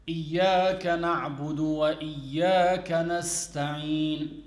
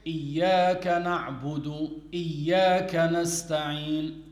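First: إياك نعبد وإياك نستعين with the و clearly sounded before the second إياك; تلاوة صحيحة مع نطق الواو; correct recitation with waw. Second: إياك نعبد then إياك نستعين with no و between them; تلاوة خاطئة بحذف الواو; recitation missing the waw. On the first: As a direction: recite it fully, keeping the وإياك linking sound. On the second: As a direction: drop the و, say the second إياك straight after نعبد. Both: Shown as a demonstration. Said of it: "so he missed out the waw".

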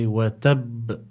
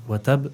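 First: Watab with a heavy doubled b, released in a bounce; watab, stretched, with the last b held and popped; emphatic qalqala. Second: Watab with a light single b at the end; without added emphasis. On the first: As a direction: lean hard and slowly on the final b of watab. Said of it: "we need to apply additional emphasis". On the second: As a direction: say watab plainly, the last b short and unstressed. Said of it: "we don't just say". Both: Shown as a demonstration.

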